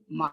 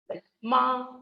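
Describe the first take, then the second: First: The pitch stays low and level. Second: The pitch stays high and level. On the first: "a low tone" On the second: "this is the high level tone"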